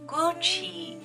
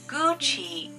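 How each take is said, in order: First: The middle consonant is a 'ch' sound. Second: The same.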